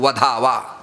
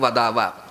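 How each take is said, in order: First: The middle consonant is an aspirated dh. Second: The middle consonant is a plain, unaspirated d. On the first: The name should be killed. The speaker calls it wrong. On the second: The name should be spoken. The speaker calls it right.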